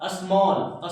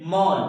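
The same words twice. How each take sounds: First: Said in the usual way. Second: मॉल said without its opening S, pitched lower; silent S. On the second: Shown as a demonstration. Teacher tells pupils to skip the S, silent-S demonstration. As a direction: drop the S and say only मॉल. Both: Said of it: "एस को silent कीजिए".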